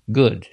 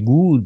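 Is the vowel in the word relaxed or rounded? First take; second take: relaxed; rounded. First: The vowel is said with relaxed, barely moving lips. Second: The vowel is said with strongly rounded lips. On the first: The speaker calls it right. "а они почти не двигаются губы" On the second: The speaker calls it wrong. "я говорю не good, я не вытягиваю вот так губы"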